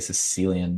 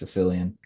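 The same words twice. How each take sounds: First: The word is said at a careful, normal pace. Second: The word is said quickly with sounds reduced. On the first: "I always say Sicilian" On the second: "sometimes I say it fast and it's just Sicilian"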